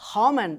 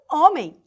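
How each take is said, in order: First: The word starts with an audible breathy H sound. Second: The word starts directly with the vowel, no H. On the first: "com esse sonzinho do R" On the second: "não tem o som do H"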